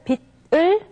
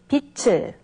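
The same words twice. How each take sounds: First: The final consonant keeps its standalone sound. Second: The final consonant changes its sound before 을. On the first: The speaker calls it wrong. "And instead of 빛을" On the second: The speaker calls it right. "we say 빛을"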